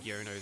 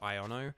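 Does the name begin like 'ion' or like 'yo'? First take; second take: yo; ion. First: The name begins with a 'yo' sound. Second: The name begins with an 'ion' sound. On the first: The speaker calls it wrong. "I've just been saying Yono this whole time" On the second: The speaker calls it right. "because it's like ion, so Iono"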